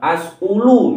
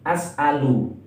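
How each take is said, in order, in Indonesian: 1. Konsonan tengah diikuti vokal 'u'. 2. Konsonan tengah diikuti vokal 'a'. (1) "tidak boleh ngawur dibaca eh, as'ulu misalkan. Hamzahnya di sini dibaca dhammah, salah" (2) "Yang betul adalah dibaca fathah hamzahnya, atau ain fi'ilnya harus dibaca fathah"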